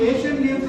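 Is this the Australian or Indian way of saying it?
Indian. It is said in a plain Indian English accent. "మనం Asian games అని పిలిచే"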